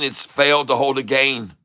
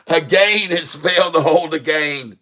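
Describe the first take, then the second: First: Said in the usual way. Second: Hammed-up English accent, "gain" said as "geɪn"; mock English accent. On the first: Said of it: "as the English would say". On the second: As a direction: put on a clumsy English accent to land the pun. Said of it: "That's a dreadful English accent".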